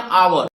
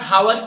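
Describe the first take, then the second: First: The word begins directly with a vowel sound. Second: The word begins with an audible h sound. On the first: The speaker calls it right. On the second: The speaker calls it wrong.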